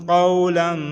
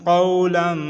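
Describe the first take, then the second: Both takes have the same delivery.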